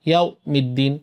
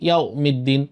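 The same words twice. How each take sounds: The two takes are said the same way.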